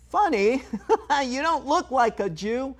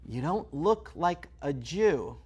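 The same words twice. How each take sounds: First: High, laughing mock voice. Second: Slow, dry repeat; slow deadpan repeat. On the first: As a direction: squeak it out like a clueless stranger. Mocking a stranger's remark. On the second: Acted. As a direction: say it back slowly and flatly. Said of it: "Okay, I kinda get it".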